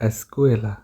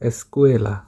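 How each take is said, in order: Both takes have the same delivery.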